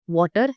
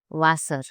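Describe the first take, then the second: First: It begins with an English W sound. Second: It begins with a V sound. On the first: The speaker calls it wrong. "Don't say water for Wasser" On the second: The speaker calls it right. "it's Wasser"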